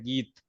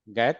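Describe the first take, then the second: First: The first vowel is an 'ee' sound. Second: The first vowel is an 'ai' sound. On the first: The speaker calls it right. "आपको ई पढ़ें, यानी कि ऐसे पढ़ें" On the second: The speaker calls it wrong. "गैत नहीं पढ़े हैं"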